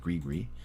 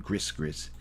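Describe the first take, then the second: First: The s sounds in the name are silent. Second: The s sounds in the name are pronounced. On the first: The speaker calls it right. "the way you're supposed to pronounce it is Team Grigri" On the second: The speaker calls it wrong. "even though it says Team Gris Gris"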